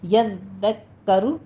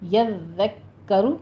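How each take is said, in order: The two takes are said the same way.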